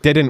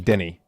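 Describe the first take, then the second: First: It is said as standard didn't. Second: It is said as Scottish dinny.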